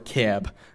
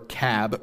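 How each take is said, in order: First: The vowel is raised and more closed. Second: The vowel is low and open.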